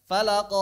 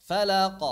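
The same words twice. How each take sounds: First: Falaq with q stretched into "qo"; falaq, final echo held a full beat; echo too long. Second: Falaq with a brief bounce on q; falaq, final echo under a beat; short correct echo. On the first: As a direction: show the overlong bounce on falaq. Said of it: "itu satu harokat itu". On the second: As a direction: model falaq with a quick release. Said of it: "Jadi jangan satu harokat". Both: Shown as a demonstration.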